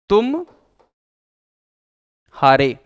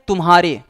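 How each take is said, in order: First: There is a short pause after the first part. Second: It is said smoothly without any pause. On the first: "थोड़ा सा रुक करके बोल दें" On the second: "बिना व्यवधान के, बिना अटैक माने बिना रुके, बिना विराम लिए"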